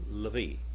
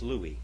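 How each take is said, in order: First: The middle consonant is a V sound. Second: The middle consonant is a W sound. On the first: This is the modern pronunciation. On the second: This is the biblical pronunciation. "the biblical Hebrew is"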